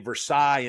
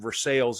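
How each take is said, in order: First: The name is pronounced the French way. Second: The name is pronounced the Kentucky way. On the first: It names the place in France. "you say Versailles in France" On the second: It names the town in Kentucky. "Versailles in Kentucky"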